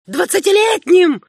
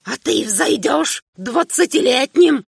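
First: Двадцатилетним shrieked high and loud; an old man's furious outcry; shrieked repetition. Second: Put-on higher old man's voice, slowing down; the old king starts to rage; an old emperor winding up to a shout; bitter old man, building. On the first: Acted. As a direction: explode on двадцатилетним. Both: Old emperor rants at son.

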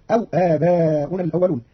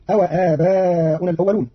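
First: أو with a silent waw, aw; Qalun reading. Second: أو with a fatha on the waw, awa; common reading. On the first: Teacher shows Qalun's reading, the waw made silent. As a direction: read أو as aw. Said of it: "بإسكان الواو". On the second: Teacher recites the usual reading, awa. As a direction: read أو as awa. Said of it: "قرأ قالون كلمة أو". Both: Shown as a demonstration.

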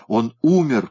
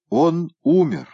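First: Said in the usual way. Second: Выше и громче, объявляет смерть; торжественно объявить всем; громкое объявление. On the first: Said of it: "повторил Петернья". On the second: A narrator's reading. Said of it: "объявил Петернья". (Петернья громко объявляет всем о смерти кота)

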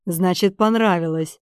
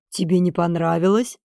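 First: Понравилось falling as a settled statement; понравилось stated with a closing downward tune; satisfied conclusion. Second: Понравилось rising as a question. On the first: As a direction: conclude contentedly, voice dropping on понравилось. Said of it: "удовлетворённо кивнул Эдж". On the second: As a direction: ask it, voice lifting on понравилось. Question answered by same word. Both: A narrator's reading.

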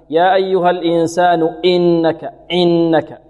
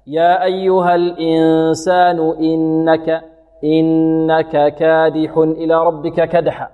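First: "إنك" attacked with a hard glottal punch; recite, then punch the first sound of "إنك"; jabbed hamza. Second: Slow chant, "إنك" entered smoothly; easy hamza. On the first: Teacher showing the error, punched hamza. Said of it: "أو نأتي باللكز الهمزة". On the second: Teacher modelling correct recitation, smooth hamza. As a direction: begin "إنك" lightly, with no jab. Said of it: "تأتي الهمزة سهلة". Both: Shown as a demonstration.

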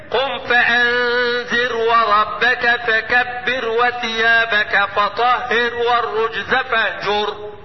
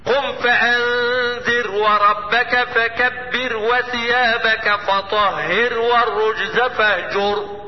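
First: Slow chanted tajweed recitation; Quran recitation. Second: Slow recitation with sukun on the ra; Quran recitation. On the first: Teacher recites verses for students, slow chanted. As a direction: recite slowly, drawing out each word. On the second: Teacher repeats verse to show silent ra, slow recitation. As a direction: recite slowly, resting on the silent ra. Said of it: "لأن الراء هنا ده فعل أمر مبني على السكون". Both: Shown as a demonstration.

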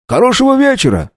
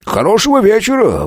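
First: «вечера» very high and stressed; «Хорошего вечера» called out high, falling; eager coachman. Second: «хорошего» high and stressed; «Хорошего вечера» sung up high, falling; fawning official. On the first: Coachman bids farewell. (радостно «Хорошего вечера») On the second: The official bows out. (угодливо «Хорошего вечера») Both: A narrator's reading.

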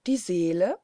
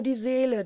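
First: "Seele?" swept upward in astonishment; questioning exclamation. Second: Said in the usual way. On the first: A narrator's reading. Two girls echo the famulus about the soul, astonished exclamation. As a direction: call out "Seele?" as a startled question. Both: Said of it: "riefen Helene und Marie fast zur gleichen Zeit aus".

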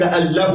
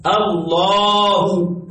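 First: ال له said as two separate parts, al then lah. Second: الله as one word, very slow, lam doubled and a held long; drawn-out Allah. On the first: Teacher contrasting the wrong form for students, split apart. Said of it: "ليس". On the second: Teacher giving students the correct form, very slow. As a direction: join it into الله and draw it out slowly. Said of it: "ليس ال له". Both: Shown as a demonstration.

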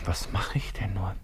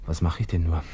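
First: Whisper. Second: Said in the usual way. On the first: Acted. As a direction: repeat it in a whisper, much softer. Wiederholt sich flüsternd. (die Frage leise flüsternd wiederholen)

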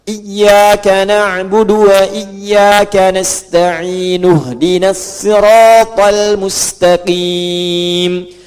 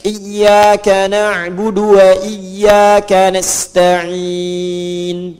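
First: Slow chant, "nasta'in" becoming nasta'inu; joined recitation. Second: Slow chant ending "nasta'in" on a held n; stopping with sukun. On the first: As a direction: link "nasta'in" with a u straight into "ihdinas". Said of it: "harakatnya u kalau disambung". (lantunkan "nasta'in" jadi nasta'inu, disambung ke "ihdinas") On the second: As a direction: stretch "nasta'in" and stop on a vowelless n. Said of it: "Kalau berhenti, sukunkan". (lantunkan lambat, "nasta'in" berhenti dengan sukun) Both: Shown as a demonstration.

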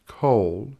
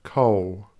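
First: Said in the usual way. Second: COAL ending in a W glide, "co-w"; final L as W. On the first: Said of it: "rendering of the final L in a word". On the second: Shown as a demonstration. Presenter showing Australian speech, COAL with L turned to W. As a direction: say "coal" with no L, rounding to W. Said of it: "rather like a W".

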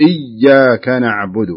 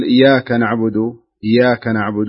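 First: "إياك" slow, with the ي held and doubled. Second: "إياك" with the ي light, no doubling; no shadda, wrong. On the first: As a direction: press the shadda on "إياك". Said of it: "لا، قل". (شدد الياء في "إياك" ببطء) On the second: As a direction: say "إياك نعبد" skipping the shadda. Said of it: "فلا تقل". (نطق خاطئ بلا شدة على الياء) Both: Shown as a demonstration.

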